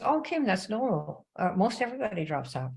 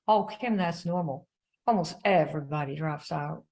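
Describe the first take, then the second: First: Mild imitated Southern drawl, slowed; lightly voiced Southern upline lady; a hint of a Southern drawl. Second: Mild imitated Southern drawl on Oh, Kim; lightly voiced Southern upline lady again; a touch of Southern drawl. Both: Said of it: "in her little Southern drawl".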